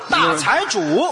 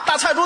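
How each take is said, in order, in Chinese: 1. 用标准普通话的声调说的。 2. 用当地口音的声调说的。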